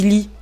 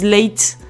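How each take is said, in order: First: The name ends with an 'ee' sound. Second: The name ends with an 'ate' sound. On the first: The speaker personally says it this way. "Et moi, je dis Lee" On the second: Some other people say it this way. "Il y a des gens qui disent Late"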